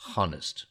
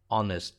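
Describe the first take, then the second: First: The word begins with an audible h sound. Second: The word begins with a vowel, no h. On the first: The speaker calls it wrong. "not honest" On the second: The speaker calls it right. "we drop the H"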